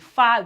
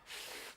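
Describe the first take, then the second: First: The f sound ends with an added vowel. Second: The f sound ends with no added vowel. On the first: The speaker calls it wrong. "instead of saying fa" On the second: The speaker calls it right. "We just say it without the, the sound at the end"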